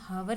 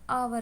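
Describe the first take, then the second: First: The word starts with a pronounced h sound. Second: The word starts with a vowel, h silent. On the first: The speaker calls it wrong. "कभी भी हावर नहीं होता" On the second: The speaker calls it right. "हमेशा आवर होता है"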